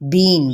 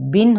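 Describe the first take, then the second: First: The vowel is a long ee. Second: The vowel is a short i. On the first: The speaker calls it wrong. "इसको बढ़ा के पढ़ा पढ़ दें" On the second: The speaker calls it right. "बा दो ज़ेर बिन होता है"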